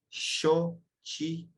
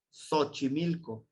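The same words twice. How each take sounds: First: "Xochimilco" slowly, starting with a hushing sh, "shochimilco"; right way. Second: "Xochimilco" with a plain s at the start, "sochimilco"; wrong way. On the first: Teacher correcting the class's mistake with the sh sound. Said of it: "Es Xochimilco". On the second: Teacher showing the class the common mistake. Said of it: "Y no es así". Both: Shown as a demonstration.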